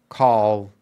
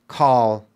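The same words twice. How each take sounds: First: The name is said as one syllable. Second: The same.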